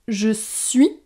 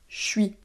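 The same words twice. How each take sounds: First: Both words are said fully and separately. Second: The words are squeezed together into a shortened form.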